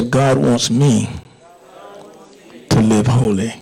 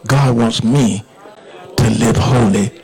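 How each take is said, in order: First: Said in the usual way. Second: "God wants me to live holy" driven home firmly; said with emphasis. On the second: Shown as a demonstration. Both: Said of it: "say it with emphasis".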